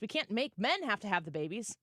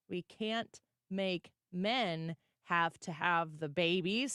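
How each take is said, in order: First: It is said at a normal speaking pace. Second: It is said more slowly and deliberately.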